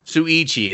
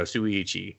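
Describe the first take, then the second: First: Found it. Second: Said in the usual way. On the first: Real, not acted. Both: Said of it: "There we go".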